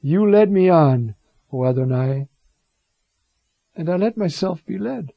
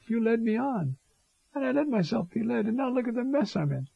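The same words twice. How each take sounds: First: Jeremiah's lament. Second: Higher and softer, a plaintive prophet pleading; Jeremiah's complaint. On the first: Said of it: "So it starts". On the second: Jeremiah quietly complaining to God who misled him, plaintive. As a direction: ache it out quietly, like a hurt friend. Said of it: "No other prophet talks like this". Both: Retold or imitated.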